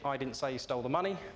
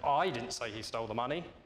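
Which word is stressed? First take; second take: none; I. First: No word in the sentence is stressed. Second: The word 'I' is stressed. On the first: It means exactly what the words say. "if you say that with a very single tone, it's very much as it is on the tin" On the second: Someone else said it. "Now suggest somebody else did"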